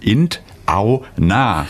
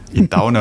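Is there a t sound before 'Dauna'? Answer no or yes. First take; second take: yes; no. First: It is said with a t before Dauna. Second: It is said without a t before Dauna. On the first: The speaker calls it right. "es muss richtig eigentlich heißen" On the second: The speaker calls it wrong. "in Dauna hört sich mal komisch an"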